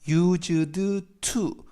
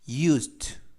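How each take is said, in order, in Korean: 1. d와 t 소리는 따로 발음해요. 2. d와 t 소리가 하나로 합쳐져요. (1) "used to 라고 발음하지 마시고요" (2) "연음이 돼서 used to가 아니라 used, used 라고 발음하시면 되겠습니다"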